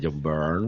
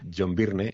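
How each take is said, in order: First: Byrne is said to sound like 'burn'. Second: Byrne is said in an older, non-'burn' way. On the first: This is how one is now told to say it. "se dice John Byrne" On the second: This is how the name was always said before. "durante toda mi vida ha sido John Byrne"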